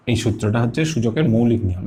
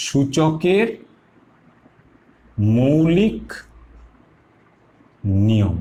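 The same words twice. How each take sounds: First: Said in the usual way. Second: Slow, each word set apart with long pauses; সূচকের, pause, মৌলিক, pause, নিয়ম, each word its own beat; word by word emphasis. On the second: Shown as a demonstration. Teacher stresses the rule name.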